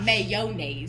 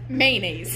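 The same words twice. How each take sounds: First: An 'o' sound follows the first syllable. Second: No 'o' sound follows the first syllable. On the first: The speaker calls it wrong. "it's not mayonnaise. You don't say it with the O" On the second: The speaker calls it right. "It's mayonnaise"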